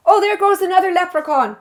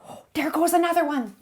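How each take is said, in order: First: High, startled pretend sighting; mock surprised spotting. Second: Hushed whisper of a pretend sighting. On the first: Cook pointing out a pretend leprechaun, mock surprised. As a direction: point it out like a leprechaun just ran by. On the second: Cook spotting another leprechaun, whispering softly. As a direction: whisper it so the leprechaun won't hear.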